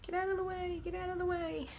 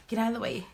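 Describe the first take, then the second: First: Soft, very high little voice; playful cooing. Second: Said in the usual way. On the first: Pretend. Crafter shooing a stray chalk bit, playful high coo. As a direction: coax it in a tiny high-pitched voice.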